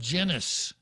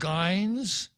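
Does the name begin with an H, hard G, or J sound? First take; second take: J; hard G. First: The name begins with a J sound. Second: The name begins with a hard G sound. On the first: Other people might say it this way. "others might call her" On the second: Some people would say it this way. "some people would call her"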